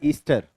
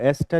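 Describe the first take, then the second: First: The first vowel is a long 'ee' sound. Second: The first vowel is a short 'eh' sound. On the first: This is how the younger generation says it. "कुछ लोग इसको ईस्टर भी बोलते हैं" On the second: This is the older, usual way of saying it. "तुम लोग क्या बोलते हो, एस्टर या ईस्टर?"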